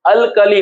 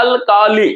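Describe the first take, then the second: First: Said in the usual way. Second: अल्काली broken into अल, का, ली; syllable by syllable. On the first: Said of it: "metal हम लोग पढ़ते हैं". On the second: Shown as a demonstration. Teacher showing how we read it, अल्काली in three parts. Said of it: "हम लोग पढ़ते हैं".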